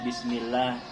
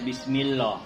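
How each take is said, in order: First: The L in Allah sounds light and thin. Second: The L in Allah sounds heavy and thick. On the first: The speaker calls it right. "Itu bacanya Bismillah" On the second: The speaker calls it wrong. "Tidak boleh dibaca Bismillah"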